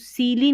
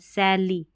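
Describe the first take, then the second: First: The first vowel is a long 'ee' sound. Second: The first vowel is an open 'eh' sound. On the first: The speaker calls it wrong. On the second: The speaker calls it right.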